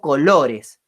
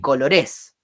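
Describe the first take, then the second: First: The stress is on the middle syllable. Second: The stress is not on the middle syllable. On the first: The speaker calls it right. "digo colores" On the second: The speaker calls it wrong. "ni colores"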